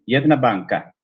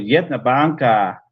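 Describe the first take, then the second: First: The final vowel is short. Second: The final vowel is lengthened. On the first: It is a genitive singular. "la A final es breve" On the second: It is a genitive plural. "prolongué un poquito la A final"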